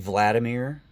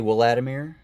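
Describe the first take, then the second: First: The name begins with a V sound. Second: The name begins with a W sound. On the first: Other people say it this way. "I've heard people say" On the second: The speaker says it this way. "I say Vladimir, Vladimir, because he's a W"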